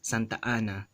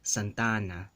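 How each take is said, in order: First: A glottal stop separates the two vowels. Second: The two vowels run together without a break. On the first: This is the Philippine Spanish way. "But in Philippine Spanish, it's Santa Ana... There's that glottal stop" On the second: This is the standard Spanish way. "in standard Spanish accent or dialect, this first phrase is going to be elongated with that vowel"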